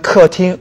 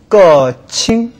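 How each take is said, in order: First: The second syllable begins with a t sound. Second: The second syllable begins with a ch sound. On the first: The speaker calls it right. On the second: The speaker calls it wrong.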